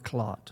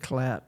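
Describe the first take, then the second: First: The surname is given its German pronunciation. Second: The surname is given its English pronunciation. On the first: This is the original family form the speaker uses. "it's pronounced Clot" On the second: This is the form the father used in business. "Clat is the English pronunciation"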